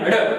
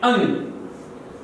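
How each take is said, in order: First: It is said like 'harh', ending in an r-sound. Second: It is said like 'ang', ending in an ng-sound. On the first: The speaker calls it wrong. "विद्यार्थी अधिकांश इसको बोलने में mistake कर देते हैं" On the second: The speaker calls it right. "इसको उच्चारण के माध्यम से बोला जाता है अंग"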